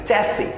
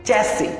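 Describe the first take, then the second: The two takes are said the same way.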